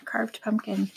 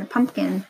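First: Soft whisper, no voice. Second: Said in the usual way. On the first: Shown as a demonstration. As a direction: breathe it like a secret. Repeats word, then whispers it.

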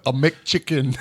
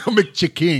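First: Said in the usual way. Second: "McChicken" ending in a full, ringing "king"; Chick-King pronunciation. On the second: Retold or imitated. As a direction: turn the end of "McChicken" into "KING", higher and louder. Repeats order as Chick-King, laughing.

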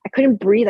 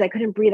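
First: Louder, pushed "I couldn't breathe"; louder breathless. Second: Said in the usual way. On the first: Retold or imitated. Telling the host about her panic watching the documentary, pushing "I couldn't breathe" out louder. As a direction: push "I couldn't breathe" out with a louder gasp of alarm. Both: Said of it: "I was having this visceral response".

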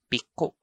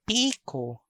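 First: Piko with short PI, stressed KO; stress on second syllable. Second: Piko with long, high PEE; PII-ko; stress on first syllable. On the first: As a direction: clip piko, weight on the last syllable. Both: Shown as a demonstration. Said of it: "I'm going to read".

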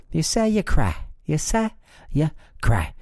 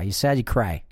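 First: High mocking dumbed-down voice; mock caveman voice. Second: Said in the usual way. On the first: Shown as a demonstration. Mocking the idea that you cry when sad, in a high dumb voice. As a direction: parrot it like a simpleton. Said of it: "You sad, you cry".

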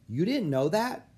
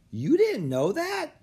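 First: High, puzzled disbelief; mildly incredulous kid; surprised question. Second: Loud, slow, very high disbelief; squeaky, flabbergasted kid; astonished question. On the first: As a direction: ask as if it's common knowledge. Olive surprised at Annie's ignorance. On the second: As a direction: draw it out, utterly incredulous. Otis echoes, more astonished. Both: A narrator's reading.

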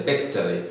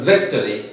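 First: "victory" said as bictory. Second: Said in the usual way. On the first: Shown as a demonstration. Teacher mimics Bengali speakers, "victory" with b for v. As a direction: start "victory" with b instead of v. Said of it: "they say victory". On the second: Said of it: "Instead of victory".

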